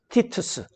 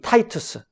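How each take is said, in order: First: The first syllable is said as 'tee'. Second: The first syllable is said as 'tie'. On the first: This is the Greek form of the name. "이 티투스는 그리스식 이름이죠" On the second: This is the English pronunciation of the name. "영어 발음은 타이투스라 그러고"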